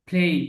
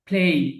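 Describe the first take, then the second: First: The vowel ends in a short glide. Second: The vowel ends in a short glide.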